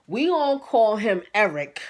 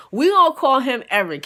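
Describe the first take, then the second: First: Said in the usual way. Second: Eric said with louder emphasis, laughing through it; louder naming. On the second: Shown as a demonstration. Teller shouting out the name Eric to the audience. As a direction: announce the name Eric to the crowd. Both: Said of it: "I'm just now giving him a name".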